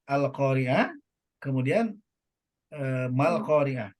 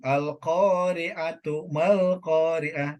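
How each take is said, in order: First: There is a stop after the first word. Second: The two words run together without a stop. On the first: "dia berhenti" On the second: "ada juga yang disambung"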